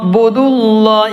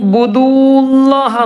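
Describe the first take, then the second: First: The vowel before 'llah' is kept short. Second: The vowel before 'llah' is drawn out long. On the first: The speaker calls it right. "നീട്ടൂല" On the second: The speaker calls it wrong. "എന്ന് പറയരുത്"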